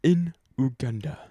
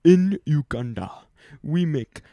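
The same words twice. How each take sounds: First: Put-on a first, hesitant try at a Ugandan accent. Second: Put-on a second, slightly bolder Ugandan accent; mild imitation of the Ugandan speaker, "Uganda" rising a little. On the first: Friend joking about the school visitor, faint Ugandan accent. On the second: Retelling the visitor's school talk, mild Ugandan accent. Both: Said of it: "I shouldn't do that accent".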